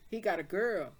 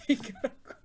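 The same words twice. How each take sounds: First: Said in the usual way. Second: Laughed through, breathy giggle; can't stop laughing while saying it. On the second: Real, not acted. Laughing retelling of gossip.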